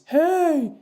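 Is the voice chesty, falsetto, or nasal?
falsetto. A light, high falsetto head voice is used. "the head voice"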